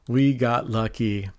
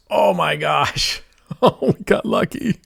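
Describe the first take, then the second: First: Said in the usual way. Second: High, laughing burst of relief at a lucky hit; excited win reaction. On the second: Real, not acted. Streamer reacts to a lucky win with laughing relief. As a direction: gasp it out, then laugh as the win lands.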